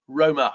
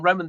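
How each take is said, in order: First: Roma, ending open on the vowel, with no N; Roma, stopping clean after the final a; said without the N. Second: Roman, with a clear N sound at the end; Roman, ending firmly on the N. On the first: Host correcting a listener's name, saying Roma with no N. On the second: Host correcting a listener's name, saying Roman with the N. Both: Shown as a demonstration. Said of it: "I didn't put the N on the end".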